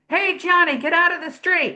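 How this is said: The shout sounds high, tight and strained. The speaker calls it wrong. "If you're doing thoracic"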